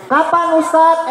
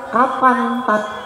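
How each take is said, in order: First: The title is said in full, two syllables. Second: The title is clipped to one short syllable. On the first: It sounds polite and respectful. The speaker calls it right. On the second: It sounds disrespectful and sinful. The speaker calls it wrong. "Coba kalau disingkat"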